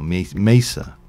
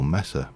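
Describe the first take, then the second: First: The word is given a careful, deliberate pronunciation. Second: The word is given a casual, offhand pronunciation. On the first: The speaker calls it right. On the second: The speaker calls it wrong.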